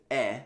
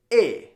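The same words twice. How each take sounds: First: "eh" as an open, short vowel; unaccented E sound. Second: "eh" as a closed "ay", going up; louder, lifted "eh", like "ay"; accent aigu E. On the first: Teacher showing plain letter E, an open "eh". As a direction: say "eh" open, without lifting it. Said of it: "instead of saying the letter E as". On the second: Teacher showing E with accent aigu, "eh" lifted to "ay". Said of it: "Your voice is going up". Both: Shown as a demonstration.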